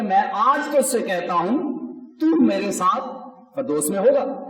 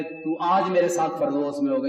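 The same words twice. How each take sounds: First: آج raised with میں آج تو اس سے کہتا ہوں, pause, then تو میرے ساتھ; pause before تو میرے. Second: Said in the usual way. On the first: Shown as a demonstration. Preacher corrects how Christ's promise reads, pause after کہتا ہوں. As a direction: lift آج, break after کہتا ہوں, press تو. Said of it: "یسوع مسیح کہتا ہے". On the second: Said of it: "یہ نہیں ہے کہ".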